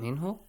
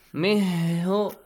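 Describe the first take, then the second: First: The n sound is pronounced clearly before hu. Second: The n sound is dropped and the words run together. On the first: The speaker calls it right. "Simple as that. Nothing is changed" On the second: The speaker calls it wrong. "Mihu, no, nothing"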